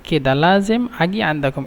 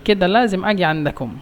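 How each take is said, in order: Both takes have the same delivery.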